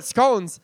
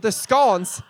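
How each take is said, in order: First: Loud American "scones" with a long O; Texas accent. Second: Loud British "scones" with a short O, like "skonz"; British accent. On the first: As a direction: say "scones" Texan-style, rhyming with "bones". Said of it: "I'll stick with the Texas accent". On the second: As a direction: say "scones" British-style, rhyming with "dons". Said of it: "that was a really bad accent". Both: Shown as a demonstration.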